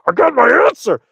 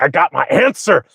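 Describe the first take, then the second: First: Very high, strained excited squeal; bursting eagerness. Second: Slightly high, bottled-up eagerness; mock giddy readiness, held at normal volume; eager anticipation. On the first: Retold or imitated. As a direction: act out barely holding the answer in. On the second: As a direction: act out being ready with the answer. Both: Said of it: "I'm being quiet and I'm ready".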